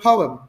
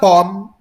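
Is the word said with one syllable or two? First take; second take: two; one. First: The word is said as two syllables. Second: The word is said as one syllable. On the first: The speaker calls it right. "Shorten it" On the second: The speaker calls it wrong. "it's not pom"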